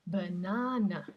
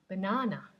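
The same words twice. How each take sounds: First: Banana slowed, each syllable pulled apart, unstressed schwa on both ends; slow careful demo. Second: Said in the usual way. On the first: Shown as a demonstration. Teacher breaking down banana for students, slow and careful. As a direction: spell banana out slowly with schwas. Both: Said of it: "So it's b".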